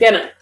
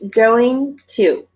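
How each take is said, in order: First: The words blend into one short reduced word. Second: Both words are said fully and separately. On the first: "saying this naturally" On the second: "So this is pronounced going to"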